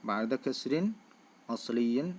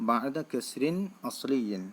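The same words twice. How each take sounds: No difference in how they are said.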